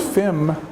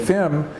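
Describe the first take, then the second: First: The L sound is left out. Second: The L sound is left out.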